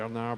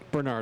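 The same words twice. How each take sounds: First: The name is said with a French pronunciation. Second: The name is said with an English pronunciation. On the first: "if it was French, it would be Bernard" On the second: "I would Bernard"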